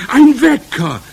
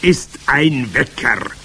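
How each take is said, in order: First: Very high, very loud screech; shriek. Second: Loud, slow, raised-pitch reveal; triumphant. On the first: Witch audience reacting to the secret, shrieking. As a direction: shriek it in thrilled amazement. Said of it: "kreischten sie". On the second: Witch leader revealing the alarm clock, triumphant. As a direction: land it slowly as a grand announcement. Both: A narrator's reading.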